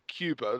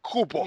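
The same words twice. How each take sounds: First: It is said with an English accent. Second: It is said with a Spanish accent. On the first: "they don't say Cuba" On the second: "they say like Cuba"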